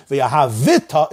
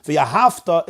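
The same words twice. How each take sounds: First: "V'yahavita" slow, with a sounded vi; V'yahavita, extra syllable before ta; moving shva. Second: "V'yahavta" with no vowel before ta; V'yahavta, v straight into ta; silent shva. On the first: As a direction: add the vowel in V'yahavita. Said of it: "It's a moving shva". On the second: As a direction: close the syllable in V'yahavta. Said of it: "is a shvanach". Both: Shown as a demonstration.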